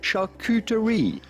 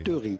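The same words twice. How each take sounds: First: It is said with an English or American accent. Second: It is said with a French accent.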